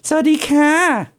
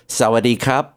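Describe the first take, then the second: First: It is said in a nasal feminine-style voice. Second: It is said in a plain male-style voice.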